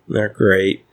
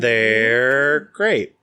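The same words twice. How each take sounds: First: It is said flatly, with little energy. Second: It is said with lots of energy.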